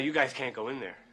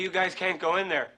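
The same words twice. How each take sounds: First: It is said at a quiet, normal volume. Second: It is said louder than before.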